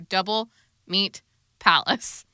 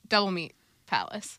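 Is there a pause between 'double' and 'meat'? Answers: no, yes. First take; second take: yes; no. First: There is a pause between double and meat. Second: Double and meat run together without a pause. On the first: The name is two separate words. The speaker calls it wrong. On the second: The name is one word. The speaker calls it right.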